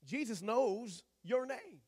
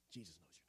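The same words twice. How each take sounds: First: Jesus knows your name, said slowly and louder, leaning on your; slow emphasis on your. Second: Jesus knows your name, much softer, with a long pause before your name; quiet, slow and intimate. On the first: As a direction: press hard on your, drawn out. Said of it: "If you don't get anything out of this whole message". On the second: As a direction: drop to a soft, settled hush. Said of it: "Rest on this". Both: Shown as a demonstration.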